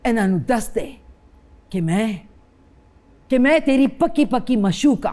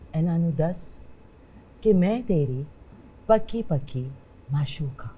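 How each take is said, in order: First: It is said in intense anger. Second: It is said gently and softly.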